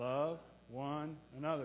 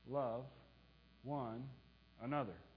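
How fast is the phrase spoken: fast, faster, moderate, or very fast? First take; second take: fast; moderate. First: The phrase is spoken a little faster. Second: The phrase is spoken at a moderate pace.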